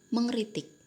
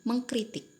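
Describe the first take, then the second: First: The k sound is dropped before the r. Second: The k sound is kept before the r. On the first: The speaker calls it wrong. "bukan mengritik" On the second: The speaker calls it right. "meng bertemu dengan kata dasar kritik menjadi mengkritik"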